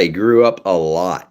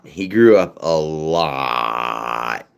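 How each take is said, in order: First: Said in the usual way. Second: He grew up a lot stretched out very slowly, each word drawn long; slow, drawn-out repeat. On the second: Shown as a demonstration. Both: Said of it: "repeated slower".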